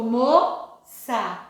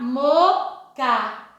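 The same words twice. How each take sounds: First: "moça" slowly, as mo-sa with an s; soft S sound. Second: "moca" slowly, as mo-ka with a k; hard C sound. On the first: Teacher showing the word with cedilla, slow s in "moça". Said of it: "mudou o som". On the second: Teacher showing the word without cedilla, slow k in "moca". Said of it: "se eu não tivesse colocado aqui o cedilha". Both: Shown as a demonstration.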